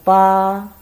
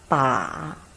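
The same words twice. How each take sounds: First: It is said with the first tone. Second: It is said with the third tone. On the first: "first tongue" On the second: "Third tongue"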